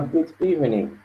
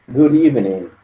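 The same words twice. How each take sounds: First: "good evening" with a clear d, words apart; separated, formal. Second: "good evening" with the d as a tapped r, guri-vening; flapped d. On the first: Teacher contrasts the formal, separated version. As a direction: say each word separately, a bit formal. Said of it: "um pouco mais formal". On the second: Teacher shows the linked d for students. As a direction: turn the d into a quick tap. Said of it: "ele vai ter um som de R". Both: Shown as a demonstration.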